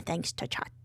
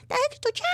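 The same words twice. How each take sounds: First: Said in the usual way. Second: Very high-pitched squeaky thanks; playful high squeak. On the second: Pretend. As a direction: squeal it in a tiny cartoon voice. Repeats the phrase in squeaky voice.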